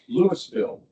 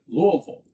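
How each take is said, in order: First: The name is said with every letter pronounced. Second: The name is said in a shortened, reduced form. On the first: This is how people in Colorado say it. "you got to put all the letters in there" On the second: This is how people in Kentucky say it. "my mother grew up in Kentucky and they always pronounced it"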